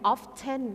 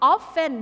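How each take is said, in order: First: The t sound is pronounced. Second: The t sound is silent. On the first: "ไม่ silent"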